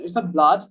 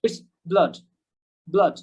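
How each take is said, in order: First: "blood" said with a long broad a, rising; wrong pronunciation. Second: "blood" with short schwa-like vowel; British pronunciation. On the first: Teacher contrasts the mistaken "blood". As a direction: show the mistaken form. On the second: Teacher models the correct British "blood". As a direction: say it short, mouth a little open. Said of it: "So it's pronounced". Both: Shown as a demonstration.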